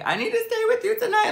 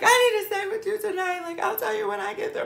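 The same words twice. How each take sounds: First: High, fast, squeaky sobbing plea; crying plea. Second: Very high, fast, wailing through tears; bawling plea. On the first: Begging her friend Tank on the phone, crying high and fast. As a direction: beg through tears, pitched way up. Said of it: "I'm literally crying". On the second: Pleading with Tank for a place to stay, wailing high. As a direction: plead in a squeaky crying wail. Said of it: "Literally bawling". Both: Retold or imitated.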